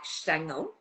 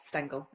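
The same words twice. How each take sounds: First: The name is said with a German pronunciation. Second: The name is said with an English pronunciation. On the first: "in German it's more like Stengel" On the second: "but it's yeah, Stengel"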